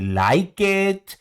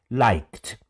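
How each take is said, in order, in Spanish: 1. La terminación se dice como una sílaba extra. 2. La terminación no añade ninguna sílaba extra.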